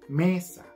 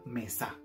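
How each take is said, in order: First: The stress is on the first syllable. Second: The stress is on the second syllable. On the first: The speaker calls it right. "Entonces se dice mesa" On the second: The speaker calls it wrong. "no es natural que se diga mesa, porque el acento está en la me"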